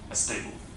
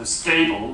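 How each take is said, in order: First: An extra vowel comes before the s sound. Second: The word starts directly with the s sound. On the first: This is how a Spanish speaker tends to say it. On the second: This is the usual English pronunciation.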